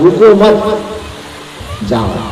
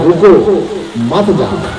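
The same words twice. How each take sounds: First: There is a pause right after the second word. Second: There is a pause right after the first word. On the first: The listener is told not to stop but to go. "अल्प विराम को इस जगह न लगा करके थोड़ा आगे लगा देंगे" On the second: The listener is told to stop and not go. "रुको के सामने अल्प विराम हमने लगाया"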